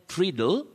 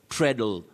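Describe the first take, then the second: First: The first vowel sounds like the vowel in 'see'. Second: The first vowel sounds like the vowel in 'bed'. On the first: The speaker calls it wrong. "If you said treadle, avoid that" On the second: The speaker calls it right. "This word is pronounced as treadle, treadle. That A is silent"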